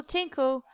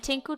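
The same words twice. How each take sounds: First: Tinkle with a falling tune; tinkle, dropping down; tinkling sound. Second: Tinkle with a rising tune; tinkle, lifting up; tinkling sound. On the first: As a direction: doll tinkling, second drip. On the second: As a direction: doll tinkling, first drip. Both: Acted. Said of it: "she made a little puddle".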